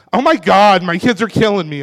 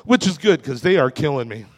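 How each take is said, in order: First: Louder, put-upon Oh my God; hammed-up frazzled parent sigh; mock exasperated parent. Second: Said in the usual way. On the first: Shown as a demonstration. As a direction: fake a weary parent's groan. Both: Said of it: "And I don't mean like".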